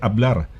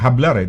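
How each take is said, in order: First: The word begins with a vowel sound. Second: The word begins with an h sound. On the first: The speaker calls it right. "They say hablar" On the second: The speaker calls it wrong. "hindi sinasabi hablar"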